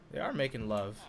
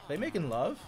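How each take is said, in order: First: Low, soft statement leaning on "are"; confirming. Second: "making love" asked with a rising tune; soft question lifting through "They making love". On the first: Gamer answering own question about villagers, confirming with stress on "are". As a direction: stress on "are", settling lower. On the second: Gamer spotting villagers' hearts, puzzled questioning. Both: Real, not acted.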